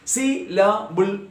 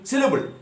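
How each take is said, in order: First: "Syllable" slowly split into three detached beats. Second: Said in the usual way. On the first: Shown as a demonstration. Teacher modelling for learners to repeat, syllable by syllable. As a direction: sound out each part of "Syllable" separately. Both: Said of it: "say it for yourself".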